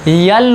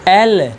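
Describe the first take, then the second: First: It begins with a y sound. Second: It begins with a plain vowel sound. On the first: The speaker calls it wrong. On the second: The speaker calls it right.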